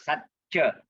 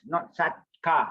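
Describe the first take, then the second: First: The middle consonant is a 'ch' sound. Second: The middle consonant is a 'k' sound. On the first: The speaker calls it right. "Remember C is pronounced as C H" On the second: The speaker calls it wrong.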